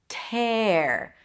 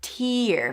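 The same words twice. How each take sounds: First: The vowel is open, jaw dropped, as in 'air'. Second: The vowel is high, as in 'ear'. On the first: To rip or ruin something. "pronounced with an E sound" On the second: Drops of water from the eyes. "then a high E"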